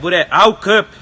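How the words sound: It is said in a harsh, aggressive tone. The dog is doing something wrong. "eu tô sendo agressivo"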